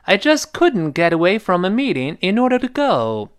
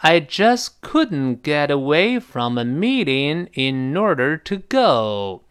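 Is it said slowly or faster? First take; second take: faster; slowly. First: It is said faster. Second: It is said slowly.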